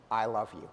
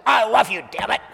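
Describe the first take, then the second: First: Low, soft and gentle; a calm reassuring I love you. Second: Loud mock-angry declaration; shouting a love confession in mock anger; angry I love you. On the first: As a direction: say it softly, like you mean it. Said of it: "Doesn't that usually come with kind of a calm voice?". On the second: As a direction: bark it out like an exasperated order. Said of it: "You don't say". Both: Shown as a demonstration.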